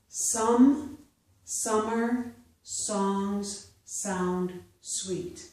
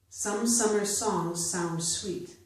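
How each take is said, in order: First: The sentence is read slowly. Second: The sentence is read at natural speed. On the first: "I will first read them slowly" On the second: "a second time at a more natural pace"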